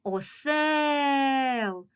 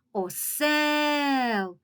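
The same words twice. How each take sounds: First: Осел called out, higher, stretched over the stressed е; sing-song call stressing осЕл; calling out the word. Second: Осел called out, higher, with the е drawn long; long call stressing the second syllable; calling out the word. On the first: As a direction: call Осел as if to someone far away. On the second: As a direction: hail осел across a field. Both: Shown as a demonstration. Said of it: "Давайте погукаємо це слово".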